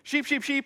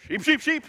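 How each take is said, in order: First: It is called plainly, without extra authority. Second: It is called with more authority and emphasis.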